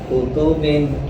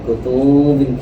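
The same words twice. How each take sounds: First: All vowels in the word are kept short. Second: A vowel in the word is drawn out long. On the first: The speaker calls it right. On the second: The speaker calls it wrong.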